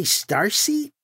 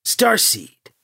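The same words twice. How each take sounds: First: "starseed" said like "star seat"; misheard word. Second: "Starseed" with a clear D at the end; "Starseed", higher, ending on a distinct D; correcting the word. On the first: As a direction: end "starseed" without a clear D. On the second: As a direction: say "Starseed" as star plus seed. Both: A narrator's reading.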